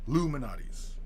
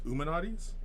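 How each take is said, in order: First: The name begins with a clear L sound. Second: The name begins with a vowel, no L.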